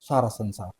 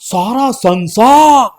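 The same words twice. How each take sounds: First: The word sansaar is said short and small. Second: The word sansaar is stretched out broadly. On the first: The world sounds like a small thing. The speaker calls it wrong. "इसको ऐसा नहीं बोला जाता है।" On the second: The world sounds vast and spread out. The speaker calls it right. "मतलब हमने संसार को फैला दिया।"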